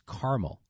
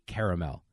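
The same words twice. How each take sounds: First: The middle vowel after the r is dropped. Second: The middle vowel after the r is pronounced. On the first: This is how it is said in the Midwest. The speaker calls it wrong. "They just act like that A is not there" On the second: This follows the spelling. The speaker calls it right. "because it's spelled C A R A, I say caramel"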